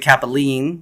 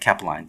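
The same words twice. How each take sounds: First: The name is said with an Italian-sounding pronunciation. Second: The name is said with a plain English pronunciation. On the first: The speaker calls it wrong. "people want to say Capeline, which I understand. It sounds very Italian" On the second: The speaker calls it right. "you said it right"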